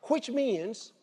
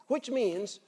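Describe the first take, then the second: No difference in how they are said.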